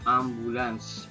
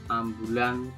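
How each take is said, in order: First: The word ends with an s sound. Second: The word ends without an s sound. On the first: "pakai S" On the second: "tanpa S"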